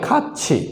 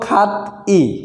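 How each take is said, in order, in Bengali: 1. 'i'-এর আগের ব্যঞ্জনটি 'ch' ধ্বনি। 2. 'i'-এর আগের ব্যঞ্জনটি সাধারণ 't' ধ্বনি। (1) "সঠিক উচ্চারণ হবে খাচ্ছি" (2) "প্রথমে ছিল খাত ই"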